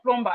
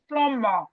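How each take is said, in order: First: The B sound is pronounced in the middle. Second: The B sound is silent in the middle. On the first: The speaker calls it wrong. "No, it's not plumber" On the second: The speaker calls it right. "It's plumber. The B is silent"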